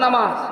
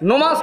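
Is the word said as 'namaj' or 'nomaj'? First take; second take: namaj; nomaj. First: The word is said as 'namaj'. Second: The word is said as 'nomaj'. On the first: The speaker calls it right. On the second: The speaker calls it wrong. "নমাজ না"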